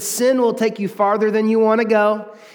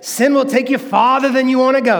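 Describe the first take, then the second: First: It is said in a plain, even voice. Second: It is said with soulful, expressive preacher energy.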